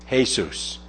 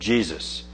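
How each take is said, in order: First: The name is said with a Spanish pronunciation. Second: The name is said with an English pronunciation. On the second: "the current English pronunciation of Jesus"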